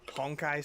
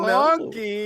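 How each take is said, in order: First: The name is pronounced in the standard way. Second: The name is pronounced in a nonstandard way.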